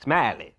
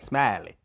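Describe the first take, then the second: First: The name is drawn out with a country twang. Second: The same.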